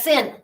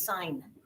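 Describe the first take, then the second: First: The vowel is short, rhyming with 'in'. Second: The vowel is long, rhyming with 'line'. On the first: The speaker calls it wrong. "expose your ignorance and call that sin" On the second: The speaker calls it right. "It's sign"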